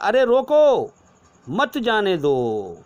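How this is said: The pause comes after the word roko. Stop him, do not let him go. "अरे रोको, अब थोड़ी देर बाद कहेंगे मत जाने दो"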